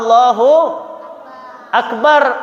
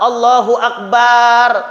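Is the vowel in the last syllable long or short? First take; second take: short; long. First: The last syllable has a short vowel. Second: The last syllable has a drawn-out long vowel. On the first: God is the greatest. The speaker calls it right. "Bacanya apa? Allahu Akbar" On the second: It changes the meaning to a drum. The speaker calls it wrong. "tetap aja panjang, salah"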